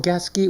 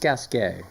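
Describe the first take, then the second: First: The name is said with an English-style pronunciation. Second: The name is said with a French pronunciation. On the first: The speaker calls it wrong. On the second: The speaker calls it right.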